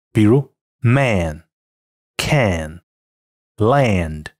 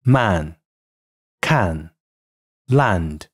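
First: Man, can, land with the vowel raised toward "air"; American raised a before the nasal in man, can, land; æ raising. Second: British man, can, land with plain open a; British English demo of man, can, land; British pronunciation. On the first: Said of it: "在鼻音前往往会更偏向于air". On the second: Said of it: "而它们在英音中的发音为". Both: Shown as a demonstration.

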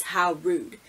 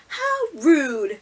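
First: Said in the usual way. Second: Raised pitch sassy "How rude"; a quick sassy mock of the catchphrase; imitating Stephanie. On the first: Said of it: "when she crosses her arm and says". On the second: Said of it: "she crosses her arms and then she looks".

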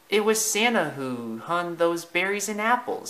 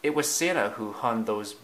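First: Higher-pitched animal character; Thumper's character voice. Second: Said in the usual way. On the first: Acted. Thumper tells Bambi who decorated the tree, high character voice. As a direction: voice it high, as a storybook figure.

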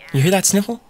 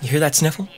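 First: "that" lifted higher with a questioning rise; emphatic repeat. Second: Said in the usual way. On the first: Real, not acted. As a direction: push the question harder, rising on "that".

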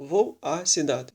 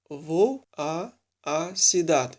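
First: «Vou a cidade» with the two a's fused into one; merged single a. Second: «vou a, a cidade» with the two a sounds split by a pause; two separate a's. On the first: Teacher showing the contracted form, single merged a. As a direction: run «Vou a cidade» together with one open a. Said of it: "пишеться одна". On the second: Teacher showing preposition plus article, two separate a's. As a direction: say both vowels apart in «vou a, a cidade». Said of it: "Щоб не писати два раз". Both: Shown as a demonstration.

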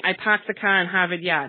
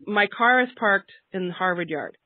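First: Boston accent with the R's dropped, "paahked the cah in Haavid Yaad"; thick Boston accent, no R sounds at all. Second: Slow and careful, every R in "parked" and "Harvard" sounded; Boston speaker deliberately saying the R's in "car", "parked" and "Harvard"; slow, clear R in "car", "parked" and "Harvard". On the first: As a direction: say "parked" and "Harvard" the Boston way, R-less. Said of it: "That hurts me to say that". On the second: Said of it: "I need to say". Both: Shown as a demonstration.

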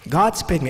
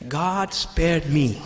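First: Said in the usual way. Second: God spared me, slow and heartfelt; slow sincere confession. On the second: Shown as a demonstration. Preacher speaking for Christians, slow and sincere. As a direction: let it land slowly as personal thanks. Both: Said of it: "we look at it this way".

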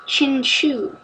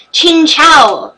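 First: "Chinchou" ending in a "shoo" sound; rejected pronunciation. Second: "Chinchou" ending like "chow"; corrected pronunciation. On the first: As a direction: quietly try "Chinchou" as chin-SHOO. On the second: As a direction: loudly declare "Chinchou" as chin-CHOW, pitched up. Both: Shown as a demonstration.

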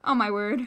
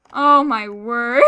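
First: Said in the usual way. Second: Slow, whiny fake wail; mock crying. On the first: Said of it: "Please have a diamond sword". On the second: Real, not acted. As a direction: wail it out, hammed-up sob. Repeat, drawn out with cry.

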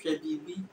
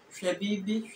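First: Twi accent. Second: Fanti "Hwebibi", lifted; Fanti accent. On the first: Teacher comparing accents side by side, Twi accent. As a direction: say "Hwebibi" the Twi way, settled. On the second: Teacher comparing accents side by side, Fanti accent. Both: Shown as a demonstration. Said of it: "variation in accent".

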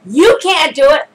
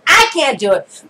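First: "You" punched as the contrast; emphatic preacher's stress on "You". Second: Emphatic preacher's stress on "I". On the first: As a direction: lean hard on "You" at the start. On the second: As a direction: hit "I" hard, then let the rest drop. Contrasts I with you. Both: Real, not acted.

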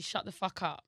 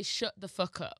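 First: London accent, open vowels in SHUT and UP. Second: Leicester accent, short "oo" vowel in SHUT. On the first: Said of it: "that's London". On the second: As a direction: demonstrate a Leicester accent, "fuck" as "fook". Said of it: "you got my accent, which is Leicester". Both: Shown as a demonstration.

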